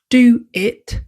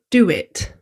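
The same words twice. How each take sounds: First: The words are said separately without a linking sound. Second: A w sound links the two words together. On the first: "Why does do it" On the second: "sound like do it? ... put in a w or y sound to connect the words"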